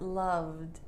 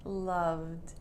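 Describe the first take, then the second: First: The ending is just a short D sound. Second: The ending is just a short D sound.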